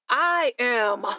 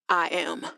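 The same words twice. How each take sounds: First: It is said firmly, with conviction. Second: It is said stiffly, without conviction.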